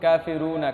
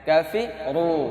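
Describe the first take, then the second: First: The r sound is light and thin. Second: The r sound is heavy and thick. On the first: The speaker calls it wrong. "এটা না কিন্তু" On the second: The speaker calls it right. "মোটা হবে"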